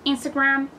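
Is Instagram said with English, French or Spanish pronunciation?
English. It is said with English pronunciation. "Instagram en inglés"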